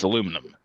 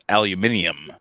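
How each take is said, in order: First: It is said the non-European way. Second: It is said the European way. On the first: "but no, it's aluminum" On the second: "people in Europe they pronounce it aluminium"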